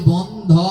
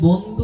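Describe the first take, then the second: First: The word ends with an 'o' vowel. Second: The word ends with an 'u' vowel. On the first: A friend of everyone in the world. The speaker calls it right. "উচ্চারণ হবে বন্ধ, ও উচ্চারণ হবে" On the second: A friend of one person alone. The speaker calls it wrong. "ওখানে বন্ধু হবে না"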